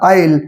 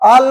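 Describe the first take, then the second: First: The vowel glides from 'ah' to 'ee'. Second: A plain 'ah' vowel with no glide. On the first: The speaker calls it right. "आईल म्हणा" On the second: The speaker calls it wrong. "आल आल नका म्हणू"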